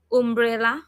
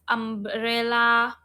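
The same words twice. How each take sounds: First: Umbrella said as "oom-brella", with an oo; wrong umbrella with a U sound. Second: Umbrella said slowly with an "uh" sound, "ahm-brella"; correct umbrella. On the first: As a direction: start Umbrella on an oo vowel, the wrong way. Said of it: "Because you said U". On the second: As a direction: stretch Umbrella out, opening on "uh". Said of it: "That's not how we pronounce U". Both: Shown as a demonstration.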